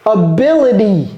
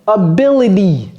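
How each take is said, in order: No difference in how they are said.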